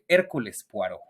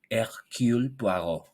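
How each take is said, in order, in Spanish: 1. El nombre se dice con pronunciación española. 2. El nombre se dice con pronunciación francesa. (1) "para los que no saben francés" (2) "la pronunciación francés del francés"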